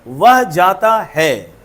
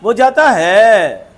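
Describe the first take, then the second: First: It is said as a plain statement. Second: It is said as a question.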